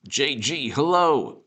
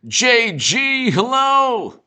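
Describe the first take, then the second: First: Said in the usual way. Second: High, loud, drawn-out hello; calling out a greeting. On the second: Real, not acted. Host hailing JG on the stream, high loud call.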